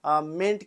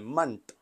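First: The vowel is full and clear, like ment. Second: The vowel is short and reduced, like munt. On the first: "और दूसरा होता है pronounce मेंट के तौर पर" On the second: "ये एक तरीका है इसका मंट के तौर पर ये प्रोनाउंस होता है"

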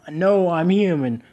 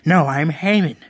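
First: The word human is pronounced the standard way. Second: The word human is pronounced oddly, slightly distorted. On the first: The speaker calls it right. "She says, no, I'm human" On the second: The speaker calls it wrong. "But she doesn't say it properly. She says"

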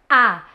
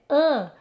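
First: The vowel is open with no nasal airflow. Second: The vowel is nasal with air through the nose. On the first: "A tá uma vogal oralizada" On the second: "o ar entre na cavidade nasal e o som fique nasalado"

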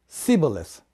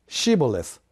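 First: The word begins with an 's' sound. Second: The word begins with an 'sh' sound. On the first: This is how the people who could not make the sound said it. The speaker calls it wrong. "シって発音ができなくて、シって言ったんですね" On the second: This is the password as the guards wanted it said. The speaker calls it right. "シボレスという言葉を言い出したんですね"

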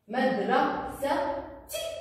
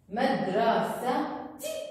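Both takes have the same delivery.

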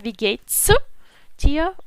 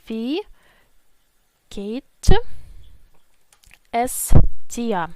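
First: 'Geht es' is contracted into one syllable. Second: 'Geht es' is said as two full words. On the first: "Це в нас скорочена форма" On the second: "Але повна форма буде звучати ось так"

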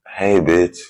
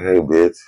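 First: It is said in a hostile, insulting tone. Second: It is said in a friendly, joking tone.

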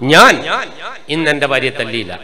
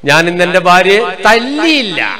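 First: The first word, ഞാൻ, is stressed. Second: The last word, തല്ലിയില്ല, is stressed. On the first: Someone else beat her. "അർത്ഥം എന്നാ വേറെ ആളെടുത്ത് ശരിക്കും കിട്ടിയിരുന്നു" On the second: She was dealt a blow in another way. "അർത്ഥം എന്നാ കൊടുത്തു"

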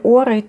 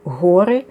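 First: The name begins with a vowel sound. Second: The name begins with an h-like sound. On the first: "Богині Ори" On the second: "в іншому вимовлянні"

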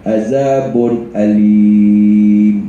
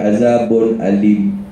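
First: The vowel in alim is held long. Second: The vowel in alim is held short. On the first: The speaker calls it right. "panjangkan dia 2, 4, 6" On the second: The speaker calls it wrong. "Dia tak boleh Azabun Alim"

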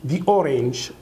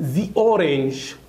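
First: The phrase is said quickly and joined together. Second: The phrase is said slowly and carefully. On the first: "طب اقولها ازاي fast speaking؟" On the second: "ده اللي هو slow speaking"

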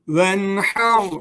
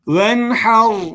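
First: The first vowel is kept short. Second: The first vowel is kept short.

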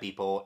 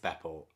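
First: The first vowel is a long 'ee' sound. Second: The first vowel is a short 'e' sound. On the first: The speaker calls it wrong. "I said Beepo" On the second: The speaker calls it right. "it's Beppo"

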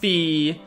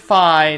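First: The vowel sounds like 'ee'. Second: The vowel sounds like 'eye'. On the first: The speaker calls it wrong. "not Fee" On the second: The speaker calls it right. "I pronounce it Fi, ... it derives from the word identify"

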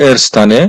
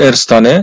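The two takes are said the same way.

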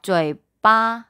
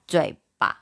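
First: The second syllable carries its full tone. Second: The second syllable is light and toneless. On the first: This is the older reading. "Hồi trước họ đọc" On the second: This is the current reading. "bây giờ họ đọc ... 轻声 bà"

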